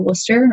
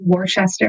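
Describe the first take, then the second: First: It is said the local Massachusetts way. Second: It is said the way outsiders say it.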